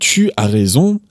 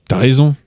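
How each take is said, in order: First: Tu is said fully as a separate word. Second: Tu is shortened and merged into as. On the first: "instead of saying tu as raison" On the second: "make that word tu shorter again"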